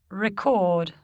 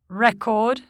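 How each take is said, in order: First: The stress is on the second syllable. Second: The stress is on the first syllable. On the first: It is a verb. "the corresponding verb is stressed on the stem" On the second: It is a noun or adjective. "Many nouns and adjectives are stressed on the prefix"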